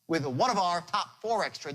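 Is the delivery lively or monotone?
lively. It is said with a varied, lively tone.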